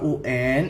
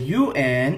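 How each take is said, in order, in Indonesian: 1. Huruf-huruf ini dilafalkan dengan nama huruf bahasa Indonesia. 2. Huruf-huruf ini dilafalkan dengan nama huruf bahasa Inggris. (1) "itu artinya ujian nasional" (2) "itu artinya United Nations"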